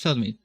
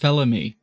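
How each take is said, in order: First: The name is said with a D sound. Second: The name is said without a D sound. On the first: The speaker calls it wrong. "I'm still, after all this time, pronouncing that not quite right" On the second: The speaker calls it right. "Just Felamy. No D"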